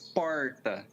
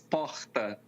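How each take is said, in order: First: The R is said like an English R. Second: The R is said the São Paulo way.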